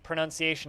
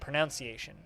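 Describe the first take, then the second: First: The second syllable sounds like 'nun'. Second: The second syllable sounds like 'noun'. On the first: The speaker calls it right. "The word pronunciation is pronounced pronunciation" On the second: The speaker calls it wrong. "and not pronunciation"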